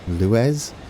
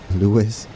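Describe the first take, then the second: First: The name ends with a buzzing 'ez' sound. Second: The name ends like the word Lewis. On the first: The speaker calls it wrong. "I have a feeling I'm butchering the other one" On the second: The speaker calls it right. "I'll stick with Lewis. That one's easy"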